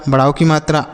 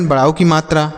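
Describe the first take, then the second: Both takes have the same delivery.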